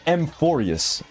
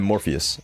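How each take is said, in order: First: The name begins with an 'am' sound. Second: The name begins directly with 'mor'. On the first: The speaker calls it right. "My bad" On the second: The speaker calls it wrong. "Everyone's been telling me I've been pronouncing it wrong"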